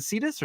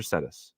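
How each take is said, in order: First: Cetus said as SEE-tus; first syllable SEE. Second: Cetus said as SET-us; first syllable SET. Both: Shown as a demonstration. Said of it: "is it Cetus or Cetus?".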